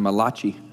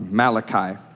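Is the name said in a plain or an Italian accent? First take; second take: Italian; plain. First: The name is said in a put-on Italian accent. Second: The name is said in a plain English accent.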